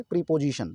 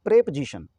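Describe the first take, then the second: First: प्रीपोजिशन as pree-po-ji-shan; long pree and full po in प्रीपोजिशन; mispronounced preposition. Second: प्रेपोजिशन as prep-zi-shan; short prep, po reduced in प्रेपोजिशन; correct preposition pronunciation. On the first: Teacher quoting the common wrong reading, प्रीपोजिशन as pree-po-jishan. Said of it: "तो प्रीपोजिशन नहीं होगा". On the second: Teacher modelling the right reading, प्रेपोजिशन as prep-zi-shan. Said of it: "बल्कि ये पढ़ा जाएगा". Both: Shown as a demonstration.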